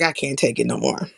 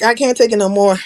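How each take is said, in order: First: Low, soft, inward sigh of a thought; inner voice. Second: Louder, spoken plainly to the listener. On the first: Fed up with a friend's talk, thinking it quietly. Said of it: "In my head". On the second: Fed up with a friend's talk, blurting it out loud. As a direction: let it slip out loud this time. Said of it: "And then it comes out verbally". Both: Retold or imitated.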